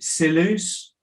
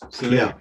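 First: The name ends with an audible S sound. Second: The name ends without any S sound. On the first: The speaker calls it wrong. "how do I pronounce it?" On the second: The speaker calls it right. "silent S"

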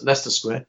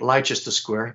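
First: The name is said the British way. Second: The name is said the American way. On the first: The speaker calls it right. "but it's Leicester Square" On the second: The speaker calls it wrong. "I know Americans say Leicester Square"

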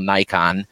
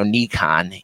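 First: The first syllable does not sound like 'nee'. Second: The first syllable sounds like 'nee'. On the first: This is the usual American way. "being American, we call Nikon" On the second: This is another way some people say it. "You've even heard Nee"

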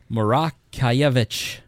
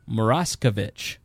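First: The name is said with a Polish pronunciation. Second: The name is said with an Anglicized pronunciation. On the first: This is how it is said in Poland. The speaker calls it right. "it should be said Morakiewicz" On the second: This is how the family in America says it. The speaker calls it wrong. "My family says Moraskovich. That is not authentic"

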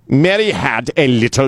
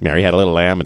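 First: It is spoken with a heavy German accent. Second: It is spoken in a plain American accent. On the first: It sounds dark and threatening. "doesn't that sound a little, you know, more threatening" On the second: It sounds harmless. "than just Mary had a little"

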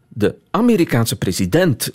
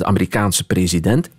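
First: Amerikaanse is stressed on its first syllable. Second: Amerikaanse is stressed on its 'kaan' syllable. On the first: "dan heb je zo de neiging om de Amerikaanse president te zeggen" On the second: "je moet eigenlijk spreken over de Amerikaanse president"

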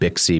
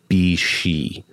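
First: The name is said to rhyme with pixie. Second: The name is said not rhyming with pixie. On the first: The speaker calls it wrong. "I just went with Bixi because it looks like it rhymes with pixie" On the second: The speaker calls it right. "I think it's supposed to be Bixi"

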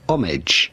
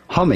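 First: American pronunciation with a weaker H sound. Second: British pronunciation with a clear H sound. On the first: "American pronunciation does not deliver the H sound quite as much" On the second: "The British pronunciation is something like homage"

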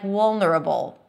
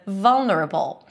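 First: It begins with a W sound, lips rounded. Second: It begins with a V sound, lip touching teeth. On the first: The speaker calls it wrong. "the sound is sometimes confused with a W sound" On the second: The speaker calls it right. "instead of vulnerable"

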